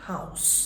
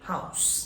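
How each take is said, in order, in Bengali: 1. শব্দটির বিশেষ্য উচ্চারণ আছে। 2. শব্দটির বিশেষ্য উচ্চারণ আছে।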